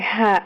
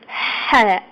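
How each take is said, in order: First: The h is a plain, light breath. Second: The h is a tight, hissing breath. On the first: The speaker calls it wrong. "I pronounce it like ha. No" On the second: The speaker calls it right. "Like you're a snake"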